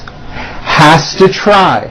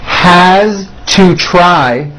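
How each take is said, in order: First: The words are squeezed together into a reduced form. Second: Each word is said separately and in full.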